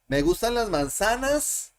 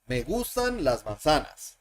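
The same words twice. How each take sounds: First: The voice rises at the end, like a question. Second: The voice falls at the end, like a statement. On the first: It asks whether I like apples. "The inflection for for interrogative sentence" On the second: It states that I like apples. "That's the inflection for affirmative sentence"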